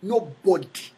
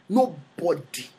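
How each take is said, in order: First: Said in the usual way. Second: "Nobody" drawn out slowly, each syllable weighted; slow, heavy "Nobody" for emphasis; slow emphatic repeat. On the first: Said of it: "Nobody ever became a king". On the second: Shown as a demonstration. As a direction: lean on "Nobody" and stretch it.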